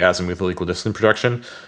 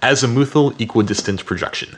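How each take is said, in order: First: It is said at normal speed. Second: It is said slowly.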